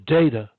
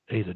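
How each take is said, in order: First: The word is said loudly. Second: The word is said softly. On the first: "and say the data louder" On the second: "when you say Ada as opposed to data, say it softly"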